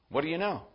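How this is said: It sounds like a light, casual greeting. It is just a friendly hello. "We sometimes greet one another with"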